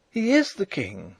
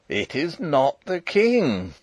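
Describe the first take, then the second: First: High, insistent cry. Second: Put-on slow, firm old soldier; old marshal. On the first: Princess refusing the marshal's denial, crying out. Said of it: "she cried". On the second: Old marshal contradicting the princess once more, insistent. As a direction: state it slowly and firmly. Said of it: "said old Sapt again". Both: A narrator's reading.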